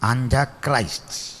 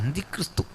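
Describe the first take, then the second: First: It is said with English sounds, ending 'Christ'. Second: It is said with Malayalam sounds, ending 'kristhu'. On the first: The speaker calls it right. "That is the correct pronunciation" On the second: The speaker calls it wrong. "ഈ അന്തിക്രിസ്തു എന്ന പ്രയോഗം ശരിയല്ല"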